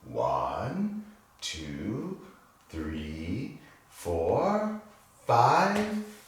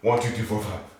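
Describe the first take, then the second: First: The numbers are counted very slowly. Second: The numbers are counted quickly. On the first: "How about very slow?" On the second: "Can you say that fast?"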